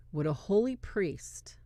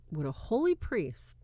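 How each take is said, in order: First: Hushed whisper of the question; whispered holy priest. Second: Said in the usual way. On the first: Shown as a demonstration. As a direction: breathe it out, unvoiced.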